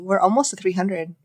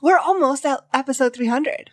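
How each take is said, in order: First: It is said in a flat, unexcited tone. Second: It is said in a lively, excited tone. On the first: The speaker calls it wrong. "That's not my normal level of excitement" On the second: The speaker calls it right. "Let's try it again with some excitement"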